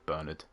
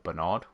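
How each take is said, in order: First: The name is said the English way. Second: The name is said the French way.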